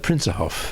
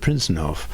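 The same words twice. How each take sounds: First: The n in the middle is dropped. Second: The n in the middle is pronounced. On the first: This is how people commonly say it. "they talk, talk about the Prinsenhof" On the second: This is the full form. "instead of the Prinsenhof"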